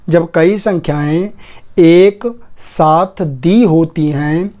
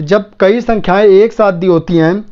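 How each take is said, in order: First: Very slow, word by word with gaps; slow dictation. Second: Said in the usual way. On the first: Shown as a demonstration. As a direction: dictate it for students writing it down. Rule repeated slowly as dictation. (धीरे-धीरे, शब्द-शब्द रुककर लिखवाते हुए)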